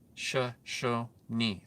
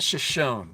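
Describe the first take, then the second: First: The word is said with three syllables. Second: The word is said with two syllables. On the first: The speaker calls it right. "Three syllables" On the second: The speaker calls it wrong. "It's not Shoshone, people"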